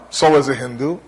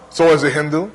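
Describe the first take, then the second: No difference in how they are said.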